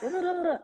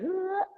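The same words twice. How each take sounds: First: High, rippling tongue-flutter noise; busy British-tongue babble. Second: Slack, mushy sound sliding up high; loose numb-tongue noise. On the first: Actress mocking how Brits overdo articulation, busy babbling noise. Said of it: "Whereas Brits are like". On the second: Actress showing her American accent placement, slack-tongued noise. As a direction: let the tongue flop into a rising noise. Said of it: "my tongue just kinda goes". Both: Shown as a demonstration.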